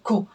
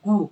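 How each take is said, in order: First: It begins with a voiceless k sound. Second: It begins with a voiced g sound. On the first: The speaker calls it right. "গটা প্রথমে উচ্চারিত হলে ক্ষয়ের মতো উচ্চারণ হবে" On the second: The speaker calls it wrong. "গু বলতে পারবো না"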